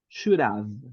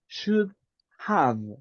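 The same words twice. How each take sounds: First: The two words are joined into one sound. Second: The two words are said separately with a pause. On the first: The speaker calls it right. "it is good to join the sounds" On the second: The speaker calls it wrong. "That is making a, a pause and taking time for the next word"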